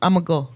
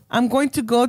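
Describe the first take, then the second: First: Going to is squeezed down even further. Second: Going to is said in full, unreduced. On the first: "we butcher shit" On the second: "we went from"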